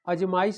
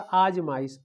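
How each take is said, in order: First: The word begins with a short 'a' vowel. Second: The word begins with a long 'aa' vowel. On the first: The speaker calls it wrong. "अजमाइश नहीं होता" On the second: The speaker calls it right. "अ पर आ की मात्रा होती है"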